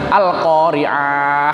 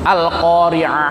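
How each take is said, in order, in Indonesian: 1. Vokalnya dibaca panjang. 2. Vokalnya dibaca pendek. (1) "Lah kan keliru" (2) "Itu pendek ya"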